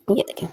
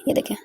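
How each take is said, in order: First: Soft whisper. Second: Said in the usual way. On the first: Real, not acted. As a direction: hush it, just breathe ये देखें. Showing the finished stitch softly. (फुसफुसाकर ये देखें)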